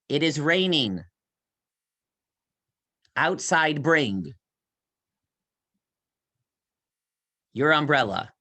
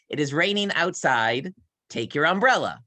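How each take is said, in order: First: The break comes after 'raining', splitting the phrase. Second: The break comes after 'outside', grouping words naturally.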